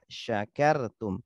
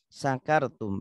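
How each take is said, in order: First: The word begins with an sh sound. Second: The word begins with a plain s sound. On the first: You are grateful. The speaker calls it right. "Padahal yang benar" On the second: You get drunk. The speaker calls it wrong. "banyak orang-orang yang membacanya menggunakan sin kecil"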